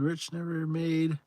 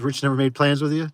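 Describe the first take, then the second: First: Drawn-out reading of the chat line; slow chat reading. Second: Said in the usual way. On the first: Shown as a demonstration. Streamer slowly reads out Rich's chat message. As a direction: read it word by word.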